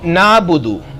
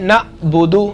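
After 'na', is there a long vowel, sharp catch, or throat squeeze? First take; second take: long vowel; sharp catch. First: The first vowel is simply lengthened, with no consonant. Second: An abrupt catch in the voice follows the first vowel. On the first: "अलिफ के साथ" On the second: "झटके के साथ"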